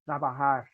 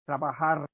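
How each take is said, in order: First: The final r sounds more like sh. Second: The final r is trilled with the tongue. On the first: "some people pronounce it more like a sh" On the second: "this is how it should sound"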